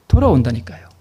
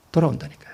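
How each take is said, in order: First: Said in the usual way. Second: Soft repeat. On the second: Shown as a demonstration.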